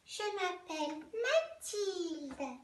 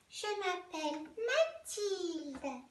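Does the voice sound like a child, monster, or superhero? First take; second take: child; child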